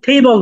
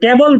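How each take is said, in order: First: The first t has a puff of breath. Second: The first t is plain, without a breath. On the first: The speaker calls it right. "টটাকে ঠ এর মতো উচ্চারণ করতে হয়" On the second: The speaker calls it wrong. "আমরা আগে যেটাকে টেবিল বলতাম"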